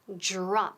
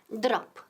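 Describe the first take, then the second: First: The 'dr' sounds like an English 'j' plus 'r'. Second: The 'dr' is a plain 'd' followed by 'r'. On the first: The speaker calls it right. "Suena un poco como la J inglesa, como Jennifer, Jennifer y con R" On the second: The speaker calls it wrong. "No es drop"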